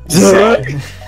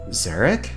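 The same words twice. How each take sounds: First: It is said in a put-on Abigail voice. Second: It is said in his normal voice.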